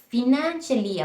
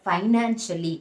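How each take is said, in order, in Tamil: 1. முதல் அசையில் 'ee' உயிரொலி உள்ளது. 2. முதல் அசையில் 'eye' உயிரொலி உள்ளது. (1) "ஈ சவுண்டு இல்லவே இல்லை... ஃபினான்ஷியலி அப்படின்ற ஒரு ப்ரொனன்சியேஷனே இல்லை" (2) "ரிசீவ்டு ப்ரொனன்சியேஷன்"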